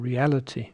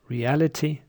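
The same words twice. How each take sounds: First: The weak vowel is a schwa sound. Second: The weak vowel is a short i sound. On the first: "or schwa" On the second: "can be pronounced with I or schwa"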